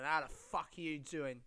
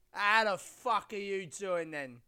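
First: Said in the usual way. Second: Louder, slow, stretched-out hello; drawn-out loud greeting. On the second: Shown as a demonstration. Podcast host hamming up his greeting, drawn out. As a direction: boom the greeting out slowly like a host.

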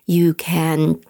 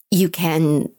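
No difference in how they are said.

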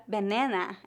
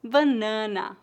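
First: "banana" in English, with reduced outer vowels; English pronunciation. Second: "Banana" with two nasal As, weak last A; Portuguese pronunciation. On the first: Teacher asking for the Portuguese of an English word, English pronunciation. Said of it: "Como você pronuncia a palavra". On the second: Teacher answering how it is said in Portuguese, Portuguese pronunciation. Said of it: "a principal diferença seria a pronúncia do A". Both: Shown as a demonstration.

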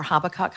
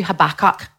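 First: Habakkuk stressed on the first syllable, HAB-a-kuk; alternative pronunciation. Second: Habakkuk stressed on the middle syllable, ha-BAK-kuk; alternative pronunciation. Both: Shown as a demonstration. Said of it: "How do you pronounce that".

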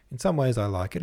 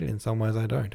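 First: Some leaned on a little, then like it; a light stress on some, weighing it up; mild stress on some. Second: Some again, then don't given the weight; mild stress on don't. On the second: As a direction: land lightly on don't. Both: Acted. Weighing the portrait.

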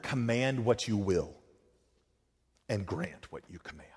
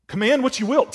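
First: Softer, lower, reverent prayer words; Augustine's prayer, hushed and reverent; hushed prayer quote. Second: Higher and ringing, preached out; prayer turned to a pulpit declaration; emphatic repeat. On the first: Retold or imitated. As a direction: pray it quietly, almost to yourself. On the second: Acted. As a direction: fling the line out to the room. Repeats the prayer words, lifted.

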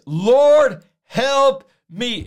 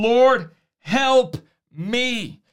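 First: Three words thrown out as a loud plea; short urgent cry. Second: Drawn out and slow, a woman begging at Jesus' feet; slow pleading. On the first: Preacher voicing the woman's three-word prayer, short and loud. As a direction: LORD cried out loud, then help me quick and direct. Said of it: "She, three words". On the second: A woman pleading again with Jesus, slow and drawn out. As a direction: stretch each word into a long plea. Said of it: "It wasn't a, a long, uh, drawn-out prayer". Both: Acted.

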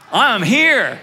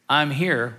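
First: I'm here said louder and higher, punched; exclamation point. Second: Said in the usual way. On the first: Shown as a demonstration. Pastor shows the church "I'm here" as an exclamation, loud and bright. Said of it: "with an exclamation point after it". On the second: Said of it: "Now I want you to say".

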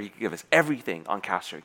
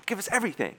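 First: Said in the usual way. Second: Everything pushed up high; "Give us everything" with everything leaping high; stress on everything. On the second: Retold or imitated. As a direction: lift the word everything way up, urgent. Boss repeats it, pushing harder.

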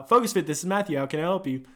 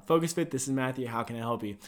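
First: Upbeat-pitched gym front-desk phone greeting. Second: Low, quiet front-desk phone greeting; routine phone greeting. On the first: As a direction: answer the gym phone for a demo. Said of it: "That's how I do it". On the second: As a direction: answer softly, tailing down lower. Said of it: "How do you answer the phone?". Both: Shown as a demonstration.

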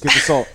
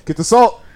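First: Said in the usual way. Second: Higher and louder, urgent; urgent mock alarm. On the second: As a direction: cry it out in mock panic. Joking about a ghost.

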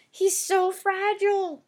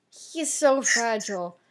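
First: He's so fragile pitched up high and drawn out slowly; "he's so fragile" stretched in a high, slow mock-tender voice; mock pity. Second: Said in the usual way. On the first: Shown as a demonstration. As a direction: say "fragile" high and slow, like cooing over a baby.

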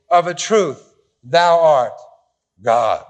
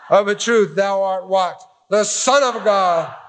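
First: Deliberate misquote. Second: Laughing, then slow on "The Son of God"; correcting with a laugh. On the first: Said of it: "Oh, sorry. Must have been the Trinitarian translation". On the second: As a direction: fix the misquote, lean on "Son of God". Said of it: "Must have been the Trinitarian translation". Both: Shown as a demonstration.

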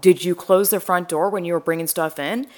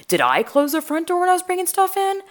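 First: Retold worried question aimed at YOU; "you" questioned, pitch near usual, rising at the end; questioning her husband. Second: "I" turned on herself, whole question pitched very high; retold panic, high-pitched self-doubt on "I"; panicked self-questioning. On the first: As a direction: ask "Did you close" as a pressing query to him. Panicked questioning of husband over door. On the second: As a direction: ask "Did I close" in a high, alarmed voice. Panicked self-questioning over the door.

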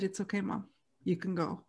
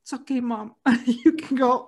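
First: Soft, gentle permission to let go; quiet and loving, easing her along; tender reassurance. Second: Gentle words that break into a laugh, louder at the end; reassurance with a laugh. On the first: Children at the deathbed telling mom she can go, soft and tender. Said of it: "we all said". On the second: Brother telling dying mom it's okay, laughing through it. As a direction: say it kindly, then laugh through it. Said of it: "he said". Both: Retold or imitated.

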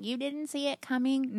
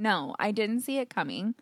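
First: Imitating everyone's higher-pitched surprised question; retold disbelief. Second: Said in the usual way. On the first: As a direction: echo their disbelief, pitched up. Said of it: "everyone's like".

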